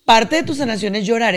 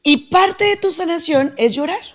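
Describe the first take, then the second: First: Said in the usual way. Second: First take pitched high with parte lifted; emphatic first take. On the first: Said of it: "repeats it". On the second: Shown as a demonstration. Psychologist stressing to listener that "parte" of healing is crying. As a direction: put the weight on "parte" and rise on it. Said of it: "repeats it plainly".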